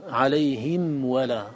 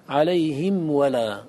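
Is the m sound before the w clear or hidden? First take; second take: clear; clear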